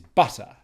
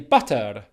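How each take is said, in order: First: The word ends in a weak vowel, no R. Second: The word ends with a rolled R sound. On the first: The speaker calls it right. "The correct pronunciation is ... You certainly don't pronounce the R at the end" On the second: The speaker calls it wrong. "if you come from a language where you roll your R's"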